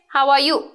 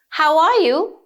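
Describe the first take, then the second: First: The voice stays flat with little pitch movement. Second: The voice moves up and down with lively pitch. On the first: The speaker calls it wrong. "You don't say" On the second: The speaker calls it right. "So you have to use the intonation"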